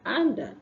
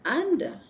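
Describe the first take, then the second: The two takes are said the same way.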